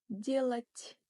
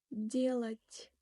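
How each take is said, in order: No difference in how they are said.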